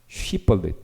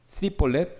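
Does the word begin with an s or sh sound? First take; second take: sh; s. First: The word begins with an sh sound. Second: The word begins with a plain s sound. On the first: The speaker calls it right. "원래 유대인 발음은 쉬볼렛" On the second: This is how the Ephraimites said it. The speaker calls it wrong. "요거면 에브라임"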